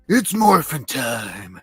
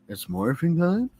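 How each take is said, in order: First: It is said as a confident, rousing call. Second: It is said as an unsure, questioning line.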